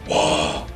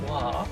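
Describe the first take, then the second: First: The word is bellowed loudly like a battle cry. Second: The word is said at normal, calm loudness. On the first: The speaker calls it right. "you say wow, and that is absolutely how you have to say it" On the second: The speaker calls it wrong. "you don't say wow"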